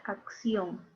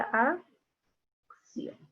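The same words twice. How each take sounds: First: Said in the usual way. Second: "acción" partido en "ac" y "ción", con pausa en medio; separado en sílabas. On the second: Shown as a demonstration. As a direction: alarga el comienzo de "acción", pausa, luego "ción". ("acción" silabeado despacio, como en clase) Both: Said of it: "Entonces sería".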